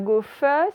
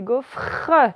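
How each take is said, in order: First: The final R sound is left out. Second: The final R sound is clearly pronounced. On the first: The speaker calls it wrong. "c'est pas gaufre" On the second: The speaker calls it right. "J'ai bien le R"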